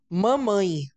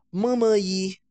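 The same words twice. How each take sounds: First: "Mamãe." said clearly with a falling tune; careful intonation. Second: Put-on "mamaí" said slowly as a toddler would, ma-ma-Í; a toddler's "mamaí", drawn out and odd; child's mispronunciation. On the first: Teacher models the expected adult pronunciation, falling. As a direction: model the correct "Mamãe." with a firm fall. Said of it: "Olha a entonação que eu estou usando". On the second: Teacher shows a child saying mamaí. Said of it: "pode escutar de uma forma estranha". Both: Shown as a demonstration.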